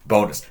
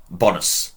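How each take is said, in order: First: Said in the usual way. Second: Bonus with a short open O, BON-us; short first vowel in Bonus, as in Latin; Latin pronunciation. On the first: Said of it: "you get a bonus". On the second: Shown as a demonstration. Teacher giving Latin for good, short-O Bonus. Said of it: "Bonus is good".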